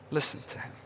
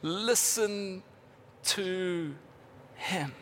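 First: Listen to him whispered without voice. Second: Said in the usual way. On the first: Shown as a demonstration. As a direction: breathe the words Listen to him intimately.

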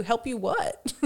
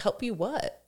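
First: The same question said through a laugh; amused mock bafflement; laughing repeat. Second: Mock puzzled question, rising at the end; a touch of bemused disbelief; baffled locals. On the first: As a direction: repeat it giggling at the absurdity. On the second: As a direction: play the confused bystander. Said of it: "people are like".

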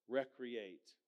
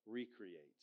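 First: "recreate" with a short REC up front, as in recreation; stress on first syllable. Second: "recreate" as REE-cree-ATE, long "ree" up front; "recreate" split as re-create, meaning create anew; re-create, with a dash. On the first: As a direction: hit the opening syllable of "recreate", REC-ree-ate. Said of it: "it's where you put the emphasis". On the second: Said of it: "has a little dash in there". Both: Shown as a demonstration.

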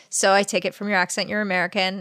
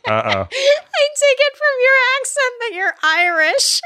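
First: Said in the usual way. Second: High, slow, squeezed out through laughter; so tickled you can barely get it out; laughing hard. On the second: Real, not acted. Cracking up while retelling own question.

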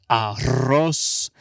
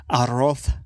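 First: "arroz" with a final s sound; Latin American pronunciation. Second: "arroz" with a lisped final th; Spaniard pronunciation. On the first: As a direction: say "arroz" ending in s, not th. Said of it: "Not like the fucking Spaniards". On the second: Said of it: "Not like the fucking Spaniards with". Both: Shown as a demonstration.

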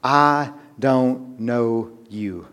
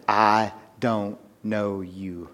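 First: Drawn out, quiet final rejection; slow solemn verdict. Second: Very slow, softer, drawn out; frightening hushed verdict. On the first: Preacher voicing the bridegroom to the foolish bridesmaids, slow and grave. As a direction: let each word fall slowly. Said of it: "What was that response?". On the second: Preacher repeating the bridegroom's words to the congregation, slow and hushed. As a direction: let the words land with dread. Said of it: "any more frightening words". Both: Acted.

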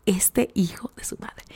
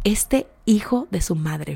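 First: Breathy whisper, barely there; whispered disbelief. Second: Hushed and slow, seething; quiet, slow muttered disbelief. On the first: To the viewers about Jeremy, a seething whisper. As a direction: whisper it like a secret curse. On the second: To the viewers about Jeremy, a hushed slow seething aside. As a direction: let it sink in quietly, slowly. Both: Real, not acted.

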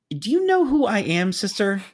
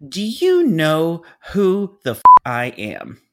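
First: Very high, indignant mock yell; imitated screaming. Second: Slow, loud, high outburst, dropping at the end; imitated screaming. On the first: Planner pulling rank on the phone, screaming. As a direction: pull rank in a raised, high voice. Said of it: "continued to scream at me". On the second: Planner pulling rank with a curse, slow scream. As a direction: stretch each word into an outraged yell. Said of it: "She continued to scream at me".

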